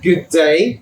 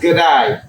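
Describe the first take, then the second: First: It is said in an English accent, fully pronounced. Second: It is said in an Australian accent, shortened. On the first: "So I would say like" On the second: "Australian is"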